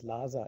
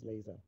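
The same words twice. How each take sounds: First: The word follows German spelling-based pronunciation. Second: The word follows English pronunciation. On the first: The speaker calls it wrong. "the typical pronunciation rules of German would pronounce laser as laser, but nobody says laser in German" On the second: The speaker calls it right. "it's pronounced in an English way in German as well"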